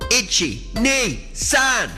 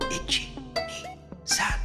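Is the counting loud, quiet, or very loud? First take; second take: very loud; quiet. First: The counting is spoken as loud as possible. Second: The counting is spoken very quietly. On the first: "as loud as we can" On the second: "very quietly"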